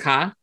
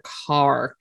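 First: The r is dropped, in a Boston accent. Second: The r is pronounced, without a Boston accent. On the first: "the one word that I cannot stop ever after 20 years is ka" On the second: "I had to purposely bust out with"

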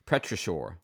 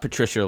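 First: The first part does not sound like Peter. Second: The first part sounds like the name Peter. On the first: The speaker calls it right. "I think is how you pronounce that" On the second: The speaker calls it wrong. "Not petrichor like a person"

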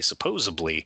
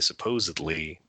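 First: The word is said with a neighborhood accent. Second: The word is said in the standard way. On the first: "they speak it with a little bit of a accent" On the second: "they wouldn't say supposedly"

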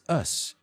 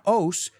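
First: The ending has a short 'uh' vowel. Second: The ending has an open 'o' vowel. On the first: The speaker calls it right. "it's us" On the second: The speaker calls it wrong. "It's not os"

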